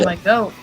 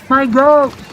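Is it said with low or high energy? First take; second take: low; high. First: It is said with low energy. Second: It is said with high energy.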